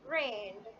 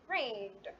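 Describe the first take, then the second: No difference in how they are said.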